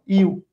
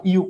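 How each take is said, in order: First: ইউ said as a short Bangla-style u sound, the way students read it; Bangla-book u. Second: ইউ said like the word you in I love you; English you sound. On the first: Teacher imitates how students read ইউ from Bangla books. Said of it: "তোমরা পড়ো হলো এরকম". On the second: Teacher shows students the correct English ইউ, like you. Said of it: "এই ইউর উচ্চারণ তো এরকম". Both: Shown as a demonstration.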